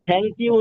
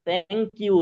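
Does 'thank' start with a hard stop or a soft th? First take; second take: hard stop; soft th. First: It starts with a hard, aspirated t-like stop. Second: It starts with a soft, airy th sound. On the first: The speaker calls it wrong. "থ্যাংক you না" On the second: The speaker calls it right. "সায়ের মতো করে"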